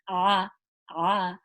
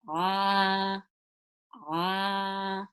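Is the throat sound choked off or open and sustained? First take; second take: choked off; open. First: The throat sound is low and choked off. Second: The throat sound is lifted and carries openly. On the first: The speaker calls it wrong. "I can't get any more sound out. So that means it's too low" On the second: The speaker calls it right. "You should lift it up"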